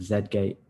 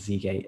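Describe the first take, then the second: First: The letter Z is said the non-American way. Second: The letter Z is said the American way.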